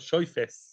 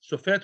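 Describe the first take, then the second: First: It has an oy vowel and ends in s. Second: It has a plain o vowel and ends in t.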